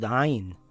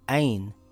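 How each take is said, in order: First: It starts with a tight sound from the throat. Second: It starts with a plain open vowel sound. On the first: The speaker calls it right. "it must come from the back of the mouth in the throat" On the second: The speaker calls it wrong. "as in the letter A, you have pronounced it wrong"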